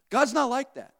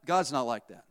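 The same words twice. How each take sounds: First: Higher-pitched, emphatic "God's not like that"; emphatic repeat. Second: Said in the usual way. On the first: Shown as a demonstration. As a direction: drive home "God's not like that" in a raised pitch.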